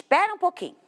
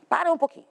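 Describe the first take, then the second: First: 'pera um pouquinho' with the colloquial clipped 'pera'; casual slip. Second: 'para um pouquinho' with both syllables of 'para' said fully; careful correction. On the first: Teacher to class, slipping into casual 'pera'. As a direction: toss off 'pera', the everyday shortened form of para. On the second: Teacher correcting herself to the class, careful 'para'. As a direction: correct yourself, saying 'para' in full. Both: Shown as a demonstration.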